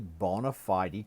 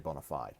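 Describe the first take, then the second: First: The final E of fide is pronounced. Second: The final E of fide is silent. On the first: This follows the Latin way of ending words. "I'm pr- pronouncing fide with the E pronounced" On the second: This is the common everyday way. "most people say bona fide"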